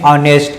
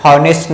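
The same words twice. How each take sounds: First: "ऑनेस्ट" opening on the vowel o; silent h. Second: "हॉनेस्ट" with breathed h at the start; misread honest. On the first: Teacher reads honest for pupils, "ऑनेस्ट" without h. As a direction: drop the h, say "ऑनेस्ट". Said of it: "इसको पढ़ते हैं ऑनेस्ट". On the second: Teacher warns pupils off a misreading, "हॉनेस्ट" with h sounded. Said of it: "हॉनेस्ट नहीं पढ़ते हैं". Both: Shown as a demonstration.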